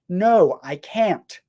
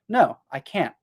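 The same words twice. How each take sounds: First: The final T is clearly released. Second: The final T is stopped, not released. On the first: The speaker calls it wrong. "I wouldn't usually say" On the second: The speaker calls it right. "I would say ... you can still hear that it stops a little bit"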